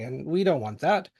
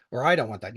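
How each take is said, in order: First: Said in the usual way. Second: I leaned on, dropping low; stress on I. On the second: Shown as a demonstration. Correcting himself to the audience, stress on I. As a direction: correct yourself by hitting I.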